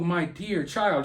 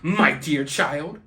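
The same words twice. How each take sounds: First: It is said in a warm, sincere tone. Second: It is said in a mocking, sarcastic tone. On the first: The words are meant with genuine affection. "she's not saying that, oh" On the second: The words are meant with contempt, not affection. "She's saying it sarcastically"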